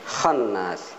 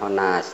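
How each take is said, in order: First: A doubled n follows an open vowel. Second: A single n follows a rounded vowel. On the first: The speaker calls it right. "tapi khannas" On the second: The speaker calls it wrong. "bukan khonas"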